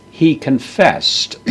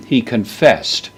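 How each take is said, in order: First: "He" lifted high, slow and deliberate; stress on he. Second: Said in the usual way. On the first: Shown as a demonstration. Lecturer glossing the Greek verb for students, slow stress on "He". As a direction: slowly lean on "He" in "He confessed.".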